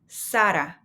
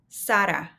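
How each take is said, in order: First: The name is said with Spanish sounds. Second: The name is said with Spanish sounds.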